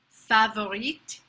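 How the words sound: The word is said with a French accent. "how a French person might say it"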